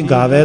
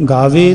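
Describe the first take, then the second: First: ਗਾਵੈ with a wide final "vae"; open ai ending. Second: ਗਾਵੇ with a narrow final "vay"; closed e ending. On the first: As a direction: finish ਗਾਵੈ on an open vowel. (ਗਾਵੈ, ਦੁਲਾਵਾਂ ਨਾਲ) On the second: (ਗਾਵੇ, ਲਾਂ ਨਾਲ) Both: Shown as a demonstration. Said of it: "ਦਾ ਫਰਕ ਆ".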